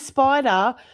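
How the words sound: It is said with an Australian accent. "in Australian accent, I would say"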